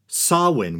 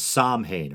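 First: It is pronounced unlike the way it looks spelled. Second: It is pronounced the way it looks spelled. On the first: The speaker calls it right. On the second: The speaker calls it wrong.

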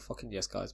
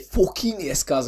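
First: It is said quietly and discreetly. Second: It is said loudly and excitedly.

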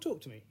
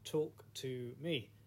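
First: The title is said at ordinary speed. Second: The title is drawn out very slowly.

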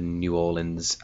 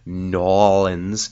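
First: The name is said in full, every syllable. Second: The name is clipped to two quick syllables.

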